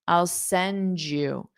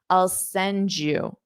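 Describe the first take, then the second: First: The D and Y merge into a J sound. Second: The same.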